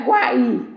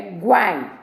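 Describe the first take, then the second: First: "guai" broken in two, gua-I; "guai" said as two syllables, gua-í; wrongly split syllable. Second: "guai" as one gliding syllable, GUAI; "guai" in a single falling beat; one joined syllable. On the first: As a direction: separate the i of "guai" into its own stressed beat. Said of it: "Não é guai". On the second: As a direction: keep "guai" whole, the i sliding off the a. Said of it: "é guai". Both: Shown as a demonstration.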